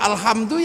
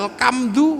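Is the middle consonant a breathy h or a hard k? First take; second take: breathy h; hard k. First: The middle consonant is a breathy h sound. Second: The middle consonant is a hard k sound. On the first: The speaker calls it right. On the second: The speaker calls it wrong.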